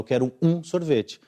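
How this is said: The stress is on um.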